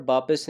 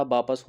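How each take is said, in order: First: वापस said as "baapis", with i in the second syllable; wrong pronunciation. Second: वापस said as "baapas", with a in the second syllable; correct pronunciation. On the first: Teacher showing students the faulty form, वापस as "baapis". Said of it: "नहीं होता". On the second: Teacher correcting the word for students, वापस as "baapas". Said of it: "वापस होता है". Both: Shown as a demonstration.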